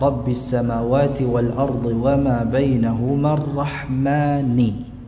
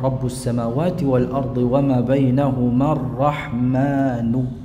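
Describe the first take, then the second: First: The word endings carry an i vowel. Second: The word endings carry a u vowel. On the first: "ini membacanya dengan kasrah" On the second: "dengan mendhammahkan Rabbi menjadi Rabbu"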